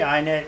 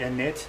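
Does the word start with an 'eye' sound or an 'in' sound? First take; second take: eye; in. First: The first syllable sounds like 'eye'. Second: The first syllable sounds like 'in'. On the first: The speaker calls it wrong. "I always pronounce it wrong" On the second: The speaker calls it right. "most people say init"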